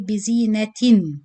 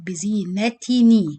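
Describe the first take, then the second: First: The word ends in a silent n sound. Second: The word ends with an added ni sound. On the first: The word is said on its own. "the normal sound of تنوين you say" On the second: The word joins smoothly to the next one. "you change the noon sakin of tanween into kasra sound"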